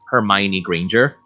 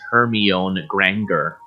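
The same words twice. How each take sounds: First: The name is said with its standard pronunciation. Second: The name is said with a misread pronunciation. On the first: The speaker calls it right. "the main female character is" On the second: The speaker calls it wrong. "I used to pronounce her name as"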